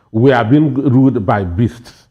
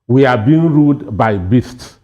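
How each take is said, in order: Both takes have the same delivery.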